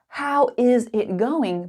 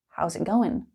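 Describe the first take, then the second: First: Every word is said fully and separately. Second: 'How is' is contracted and the g is dropped.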